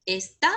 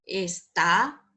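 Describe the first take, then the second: First: "Esta" as ES-ta, weight at the start; demonstrative "Esta", first syllable stressed. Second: "Está" as es-TÁ, rising onto the end; stress on last syllable. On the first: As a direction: lean on the ES of "Esta". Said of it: "indica, eh, demostración". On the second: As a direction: punch the TÁ of "Está". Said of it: "es un verbo". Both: Shown as a demonstration.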